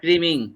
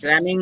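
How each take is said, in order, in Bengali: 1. প্রথম স্বরধ্বনিটি 'cream'-এর 'ee'-র মতো শোনায়। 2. প্রথম স্বরধ্বনিটি 'cram'-এর 'a'-র মতো শোনায়। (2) "স্ক্র্যামিং না"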